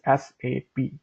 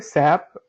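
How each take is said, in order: First: It is said as three separate letters. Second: It is said as a single word. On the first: The speaker calls it right. "The pronunciation is basically is S A P" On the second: The speaker calls it wrong. "it's not a S A P uh, word"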